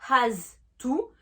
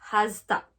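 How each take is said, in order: First: The word 'to' keeps its full vowel. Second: The word 'to' is reduced to 'ta'.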